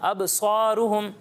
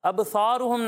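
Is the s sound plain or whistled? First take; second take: whistled; plain. First: The s sound has a whistling hiss. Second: The s sound lacks a whistling hiss. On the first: The speaker calls it right. "یہاں سیٹی کی آواز آنی چاہیے" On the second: The speaker calls it wrong. "اب سوروہم نہیں"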